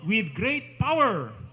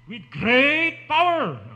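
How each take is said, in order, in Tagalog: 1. Kaunti lang ang diin sa salitang great. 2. Malakas ang diin sa salitang great. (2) "yun, ang tamang intonation ng great"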